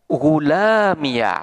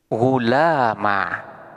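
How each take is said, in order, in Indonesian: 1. Kata ini berakhir dengan suku kata ekstra ya. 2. Kata ini berakhir dengan bunyi a pendek. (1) "boleh dimapnikan dengan fathah" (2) "alifnya dibuang sementara harkat fathah"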